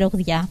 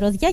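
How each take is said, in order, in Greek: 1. Λέγεται με ήχο g. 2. Λέγεται χωρίς ήχο g. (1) "και όχι Ρωδιά" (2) "να το λέτε Ρωδιά"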